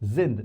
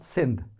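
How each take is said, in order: First: The word begins with a buzzing Z sound. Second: The word begins with a hissing S sound. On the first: The speaker calls it right. "mostly it is pronounced as Z. So this is sind" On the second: The speaker calls it wrong. "not sind"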